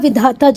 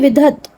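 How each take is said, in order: First: The word ends in a long vowel sound. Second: The word ends in a consonant sound. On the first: "यहाँ पर लिखा विधाता जरूर है" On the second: "पर ये विधत है"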